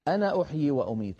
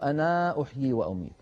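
First: The final vowel of 'ana' is short. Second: The final vowel of 'ana' is long. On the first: The speaker calls it right. "ألفها لا تنطق عند الوصل" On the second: The speaker calls it wrong. "ولا نقول"

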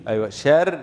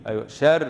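Both takes have the same delivery.

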